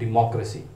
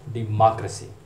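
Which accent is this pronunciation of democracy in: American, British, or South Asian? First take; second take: British; American. First: It is said with a British accent, rounded 'mo'. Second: It is said with an American accent, open 'ma'. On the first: "जो British प्रोनाउंसिएशन है वो डिमोक्रेसी, डेमोक्रेसी नहीं" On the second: "जो American प्रोनंसिएशन है ... इसमें मा"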